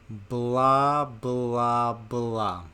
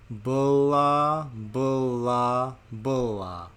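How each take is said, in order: First: It is said more slowly still. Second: It is said very slowly, slowest of all. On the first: "Even slower" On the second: "And even slower still"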